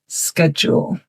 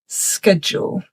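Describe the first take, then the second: First: It is said with a North American pronunciation. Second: It is said with a North American pronunciation.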